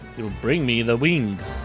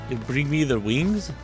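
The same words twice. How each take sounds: First: The voice falls at the end, like a statement. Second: The voice rises at the end, like a question. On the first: It is an order or statement. The speaker calls it wrong. "I think that was supposed to be" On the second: It is asked as a question. The speaker calls it right. "How do how do I make that sound like a question?"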